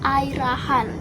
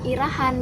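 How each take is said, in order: First: The name begins with an 'eye' sound. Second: The name begins with an 'ee' sound. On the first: The speaker calls it right. "yang bener itu adalah Airahan" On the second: The speaker calls it wrong. "nyebut namanya dia itu bukan Irahan"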